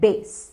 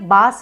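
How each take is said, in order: First: The vowel is like the a in face. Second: The vowel is like the a in father. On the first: The speaker calls it right. "आप कहिए बेस" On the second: The speaker calls it wrong. "Spelling के हिसाब से बास है, पर वो गलत है"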